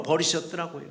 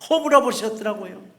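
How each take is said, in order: First: Said in the usual way. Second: 허물어 punched higher and louder; stress on 허물어. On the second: Shown as a demonstration. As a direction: lean hard into 허물어 as you repeat it.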